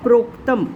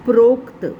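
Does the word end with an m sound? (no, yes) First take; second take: yes; no. First: The word ends with a final m sound. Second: The word ends without a final m sound. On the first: The speaker calls it right. "लेकिन वह word है प्रोक्तम" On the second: The speaker calls it wrong. "आपने word बोला था"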